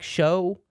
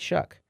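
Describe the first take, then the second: First: The name ends in an open vowel sound. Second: The name ends in a k sound. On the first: The speaker calls it wrong. "It looks like show" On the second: The speaker calls it right. "but it's Shuck"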